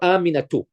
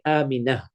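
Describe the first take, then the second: First: The word ends with a full 'tu' syllable. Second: The word ends with a soft 'h' sound. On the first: The full case ending is kept. "in speech, we don't say aminatu" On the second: The speaker stops on the word. "We say aminah"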